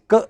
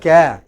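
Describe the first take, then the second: First: The syllable is barely voiced, nearly just k. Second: The syllable is said with a full vowel. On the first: The speaker calls it right. "it is just k" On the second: The speaker calls it wrong. "It is not ca"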